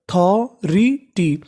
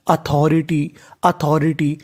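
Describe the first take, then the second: First: authority stretched out very slowly, syllable by syllable; slow teaching demo. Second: Said in the usual way. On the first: Shown as a demonstration. Teacher to students, slowly sounding out the word. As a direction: spell authority out slowly, each syllable apart. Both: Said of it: "तो meaning क्या बनी?".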